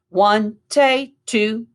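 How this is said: The voice stays level; the last count is short. The speaker calls it right. "We're not going to go up with the inflection of our voice"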